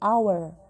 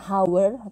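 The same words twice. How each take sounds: First: The h at the start is silent. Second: The h at the start is sounded. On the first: The speaker calls it right. "H tidak dibaca jelas" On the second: The speaker calls it wrong. "bukan hour atau hour bacanya"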